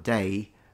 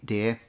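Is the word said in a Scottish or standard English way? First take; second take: standard; Scottish. First: The vowel is the usual English one. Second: The vowel copies the Scottish pronunciation. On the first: "instead of saying day" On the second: "they say dear, something like this"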